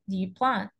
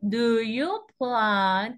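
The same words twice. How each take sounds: First: The words are reduced and run together. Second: Each word is said fully and separately. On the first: "they don't emphasize every word" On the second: "we say every word"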